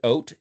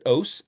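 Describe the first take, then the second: First: The word ends with a t sound. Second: The word ends with an s sound. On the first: "It's pronounced oat if you give the phonetic T"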